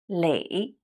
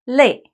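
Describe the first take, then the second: First: The word has a dipping third tone. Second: The word has a falling fourth tone. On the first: It means accumulate. "it's the third tone" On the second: It means tired. "a falling tone, fourth tone"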